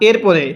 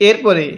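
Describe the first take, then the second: Both takes have the same delivery.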